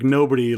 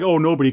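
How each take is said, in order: First: Understated, falling "nobody"; sad connotation. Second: Louder, casual "Oh, nobody"; offhand, weirded-out nobody. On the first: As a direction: let "nobody" drop with a touch of sadness. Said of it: "it has a sad connotation". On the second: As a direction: toss out "Oh, nobody" as if merely remarking. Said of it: "not like, "Oh, nobody," 'cause that's weird". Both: Shown as a demonstration.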